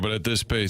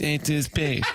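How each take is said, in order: First: It is said in a plain, neutral tone. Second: It is said in a mocking, condescending tone.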